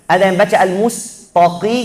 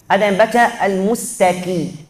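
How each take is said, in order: Both takes have the same delivery.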